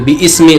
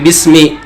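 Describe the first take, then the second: First: The vowel before 'smi' is pronounced separately. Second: The vowel before 'smi' is dropped and joined. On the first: The speaker calls it wrong. "tidak di bi ismi" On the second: The speaker calls it right. "tapi bismi"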